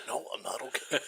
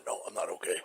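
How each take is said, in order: First: Soft, laughing groan; laughing through it. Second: Low, soft pained groan. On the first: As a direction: let the laugh break the moan. Repeated while laughing. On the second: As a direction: moan it out like you're hurt. Hurt father after fall. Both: Retold or imitated.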